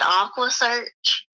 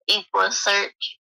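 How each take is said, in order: First: The first vowel sounds like 'ah'. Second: The first vowel sounds like 'eh'. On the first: The speaker calls it wrong. "he said Aqua Search" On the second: The speaker calls it right. "he mispronounced Equa, Equa Search"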